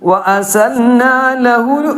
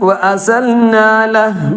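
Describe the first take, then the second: First: The phrase ends with a u vowel. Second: The phrase ends on a bare h sound. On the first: The reader continues without stopping. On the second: The reader stops here.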